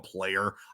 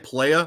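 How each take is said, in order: First: The word ends with a clear r sound. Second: The word ends in a vowel without r. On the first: "when I go player" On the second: "a lot of people say playa"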